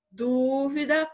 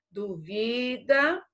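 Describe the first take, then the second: First: Dúvida with the stress on DÚ, a bit higher and slower; stress on first syllable. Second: Duvida with the stress on vi, slow and drawn out; stress on second syllable. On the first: Teacher contrasting the noun form for students, stress on DÚ. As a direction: lean on DÚ in Dúvida. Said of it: "proparoxítona". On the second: Teacher contrasting the verb form for students, stress on vi. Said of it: "paroxítona". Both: Shown as a demonstration.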